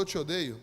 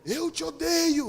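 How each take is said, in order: First: Said in the usual way. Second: High, slow, loud demonic voice; hammed-up possessed man snarling. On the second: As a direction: stretch it out like a demon. Possessed man's hateful voice.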